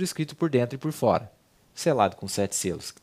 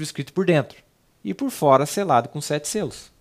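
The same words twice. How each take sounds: First: The pause comes after the word fora. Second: The pause comes after the word dentro. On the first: It is written on both the inside and the outside. The speaker calls it wrong. "a vírgula estava no lugar errado" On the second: Only the inside is written; the outside is just sealed. The speaker calls it right. "da maneira que foi revelado para o profeta"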